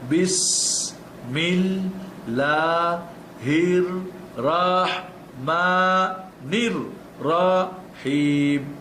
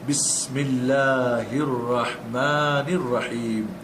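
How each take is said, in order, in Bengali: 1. এটি ধীরে ধীরে, অক্ষর অক্ষর করে পড়া হয়। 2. এটি সাবলীলভাবে, সংযুক্ত শব্দ হিসেবে পড়া হয়। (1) "পড়বেন দশ বার ধরে ধরে একটা একটা করে অক্ষর" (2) "লাস্টে গিয়ে আপনি পড়বেন"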